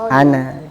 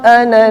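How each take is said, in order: First: The final vowel is drawn out long. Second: The final vowel is kept short. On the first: The reading stops on this word. "Kalau berhenti ah ana. / Waqaf maka dibaca panjang ana" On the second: The reading continues past this word. "Kalau misalkan lanjut"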